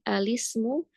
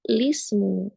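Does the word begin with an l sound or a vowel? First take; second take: vowel; l sound. First: The word starts with an a vowel. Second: The word starts directly with an l. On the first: "menetapkan hamzah ya di al-ta'rif maka menjadi alismu diberikan fathah" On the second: "dihilangkan si hamzahnya menjadi"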